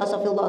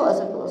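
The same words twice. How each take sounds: First: It is said quickly, like counting. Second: It is said drowsily, like half asleep.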